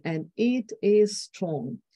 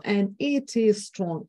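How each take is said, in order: First: And it is strong, slow, every word stressed, falling at the end; slow, each word stressed. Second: And it is strong, slow, every word stressed; slow, each word stressed. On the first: Retold or imitated. Lecturer quoting Bush, slow with stress on every word. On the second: Shown as a demonstration. Lecturer demonstrating the slow stressed delivery. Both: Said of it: "deceleration of tempo, stress on each word".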